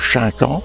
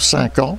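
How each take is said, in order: First: The word begins with an sh sound. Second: The word begins with an s sound. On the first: This is how the speaker's own village said it. "Nous disions le chinquant" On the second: This is how the people of the hamlet said it. "étaient incapables de prononcer le, le son ch"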